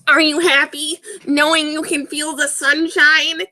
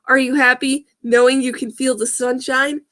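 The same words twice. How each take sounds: First: It is said in a demonic voice. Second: It is said in a normal voice.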